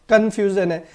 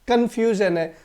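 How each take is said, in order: No difference in how they are said.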